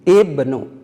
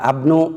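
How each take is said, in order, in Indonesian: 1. Kata ini diawali dengan vokal i. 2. Kata ini diawali dengan vokal a. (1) "Kenapa diberi harkat kasroh?" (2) "Tidak abnu"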